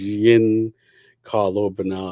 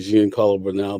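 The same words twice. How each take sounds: First: The name is said slowly and carefully. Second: The name is said quickly and run together. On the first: The speaker calls it right. "but I think it's" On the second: The speaker calls it wrong. "I have the bad habit of like just saying his name quickly"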